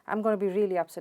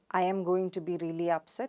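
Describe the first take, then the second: First: The words are contracted and reduced together. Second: The words are said in full, unreduced forms. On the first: "native speakers of English might say something like" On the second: "How do we uh, Indians pronounce this?"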